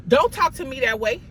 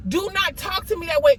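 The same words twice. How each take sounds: First: Said in the usual way. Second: Higher, "Do not" pulled apart and stressed; firm emphatic "not". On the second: Shown as a demonstration. Telling someone who disrespects her, firm stress on not. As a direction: spell it out firmly, "Do not".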